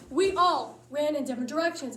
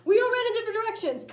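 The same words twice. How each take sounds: First: Said in the usual way. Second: Quick, higher and louder; fast excited. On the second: Shown as a demonstration. Comic retelling the frantic escape, fast excited rush. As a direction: rattle it off in a panic.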